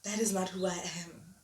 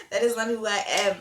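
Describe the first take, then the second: First: Said in the usual way. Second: Louder, forceful declaration; emphatic repeat. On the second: Real, not acted. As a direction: say it louder, with full conviction.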